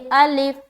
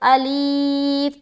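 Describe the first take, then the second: First: The second vowel is short and said quickly. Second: The second vowel is drawn out and long. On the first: The speaker calls it right. "बिल्कुल जल्द पढ़ेंगे" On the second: The speaker calls it wrong. "कोई पढ़े अलीफ तो गलत हो जाएगा"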